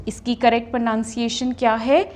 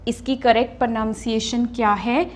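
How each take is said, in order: The two takes are said the same way.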